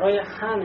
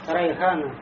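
First: The h sound is a smooth breathy throat sound. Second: The h sound is a harsh, scraping back sound. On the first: The speaker calls it right. "И у тебя получится райан, райхан" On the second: The speaker calls it wrong. "не можешь ха произнести по-арабски, у тебя получается райхана"

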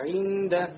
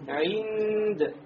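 First: The word ends with a short final vowel. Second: The word ends on a consonant, no final vowel. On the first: The reading continues past this word. "а так" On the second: The reading stops at this word. "Это при остановке"

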